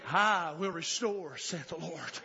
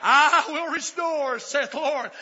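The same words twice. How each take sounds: First: Said in the usual way. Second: Loud, high, drawn-out scripture cry; shouted proclamation. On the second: Real, not acted. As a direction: proclaim it at full preaching force. Proclaims scripture at full force.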